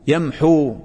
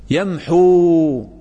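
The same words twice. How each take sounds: First: Said in the usual way. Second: ويمحو stretched very slowly; teacher stretching the word for the class; drawn-out demo. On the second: Shown as a demonstration. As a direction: drag out يمحو syllable by syllable. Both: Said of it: "مرفوع بماذا".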